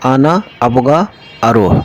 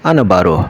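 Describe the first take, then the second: First: All three words are said in full. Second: All the words run together into one word. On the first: The speaker calls it wrong. "যেমনটি বলা যায় আমি যেতে চাই" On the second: The speaker calls it right. "একদম সংক্ষেপে যেটা আরাবিয়ানরা বলে"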